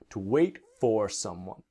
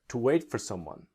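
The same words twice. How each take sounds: First: It is said at a slower, careful pace. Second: It is said at a faster, reduced pace.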